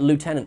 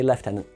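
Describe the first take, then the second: First: The word is said with the American pronunciation. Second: The word is said with the British pronunciation. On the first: "I grew up thinking that Lieutenant was the only pronunciation of that word because I watched Star Trek" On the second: "they say Lieutenant this side of the pond"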